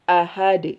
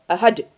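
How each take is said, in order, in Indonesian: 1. Bunyi d di akhir dilepas dengan sedikit memantul. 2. Bunyi d di akhir diikuti hentian glotal. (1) "maka kolkolahkan, alirkan" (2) "Jangan jangan ditambahkan hamzah"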